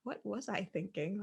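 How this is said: The tone is gentle and kind. It approaches oneself with curiosity. The speaker calls it right. "in a really nice tone of voice"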